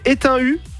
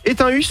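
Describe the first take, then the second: First: The name ends without an S sound. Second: The name ends with an S sound. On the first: The speaker calls it right. "la première était la bonne" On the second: The speaker calls it wrong. "on ne dit pas le S"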